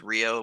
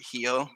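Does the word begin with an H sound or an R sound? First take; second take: R sound; H sound. First: The word begins with an R sound. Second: The word begins with an H sound. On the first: This is how it is commonly said elsewhere. "everybody says Rio" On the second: This is how locals say it here. "here they pronounce it Hio"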